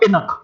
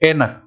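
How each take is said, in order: First: The first vowel is short and clipped. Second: The first vowel is long and drawn out. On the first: The speaker calls it wrong. "कम time में बोलने की कोशिश करोगे तो आपको हिरन की तरह से उछलना पड़ेगा" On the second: The speaker calls it right. "बड़े आराम से बोला जाता है"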